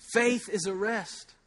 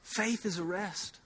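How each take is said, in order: First: Said in the usual way. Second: Faith is a rest said softly and slowly, easing off; quiet, unhurried repetition. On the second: Shown as a demonstration. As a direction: let it settle gently. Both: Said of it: "I'm supposed to just say that over and over".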